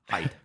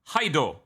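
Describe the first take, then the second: First: The name is said with one syllable. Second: The name is said with two syllables. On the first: The speaker calls it wrong. "not Hyde" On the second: The speaker calls it right.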